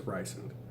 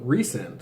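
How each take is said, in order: First: The name does not sound like 'resend'. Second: The name sounds like the word 'resend'. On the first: This is the speaker's own preferred way of saying it. The speaker calls it wrong. "mine is Rysand. Because that sounds better" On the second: This is how the author intended it. The speaker calls it right. "So resend. So I'm going to resend you something"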